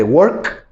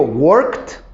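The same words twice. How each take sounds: First: Work, K heard at the end; present, ends in K. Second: Worked ending in a clear T; worked with the T sounding at the end; past, ends in T. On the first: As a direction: Work slowly, ending on a clear K. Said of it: "fíjense cómo lo digo en presente". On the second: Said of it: "ya suena la T". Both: Shown as a demonstration.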